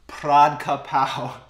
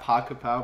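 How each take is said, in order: First: The name is said in a fuller, native-style form. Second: The name is said in a simplified, casual form. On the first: This is how native speakers say it. The speaker calls it right. "I think they pronounce it Pradka Pao" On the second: This is the common casual way people say it. The speaker calls it wrong. "Not Paka Pao, but that's just what they call it"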